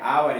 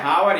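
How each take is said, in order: First: The word begins with a vowel sound. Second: The word begins with an h sound. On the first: This is how the word is read aloud. "लेकिन पढ़ते हैं आवर" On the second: This is how the word is spelled. "लिखते हैं हावर"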